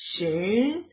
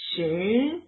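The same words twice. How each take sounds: First: The pitch rises on the word. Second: The same.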